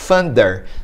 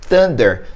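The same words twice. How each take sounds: First: It begins with an f sound. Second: It begins with a t sound. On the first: "alguém pode ouvir thunder com som de F" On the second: "no som de T"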